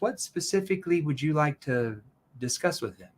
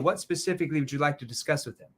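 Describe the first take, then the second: First: The question is asked at a slow pace. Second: The question is asked at a quick pace. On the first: The listener is prompted to think deeply before answering. The speaker calls it right. "notice how I slowed down that question" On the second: The listener gives a knee-jerk reaction without thinking. The speaker calls it wrong. "when I ask a quick question like that"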